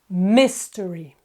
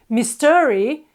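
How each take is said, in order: First: The stress is on the first syllable. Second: The stress is on the second syllable. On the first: The speaker calls it right. "The accent is on the first syllable" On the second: The speaker calls it wrong. "They've put the stress on the second syllable instead of the first one"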